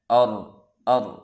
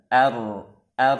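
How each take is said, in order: First: The opening vowel is heavy, close to o. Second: The opening vowel is thin, like a. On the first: The speaker calls it wrong. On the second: The speaker calls it right. "seharusnya hamzah wasal tipis"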